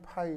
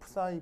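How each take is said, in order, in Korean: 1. 이 단어는 's' 소리 없이 발음해요. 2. 이 단어는 's' 소리가 있게 발음해요. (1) "파이 이렇게 발음하기도 해서" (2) "프사이라고 읽어요"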